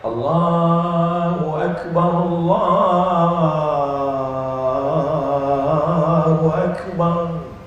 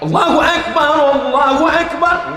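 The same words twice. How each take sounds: First: It is said softly and gently. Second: It is called out loudly and forcefully.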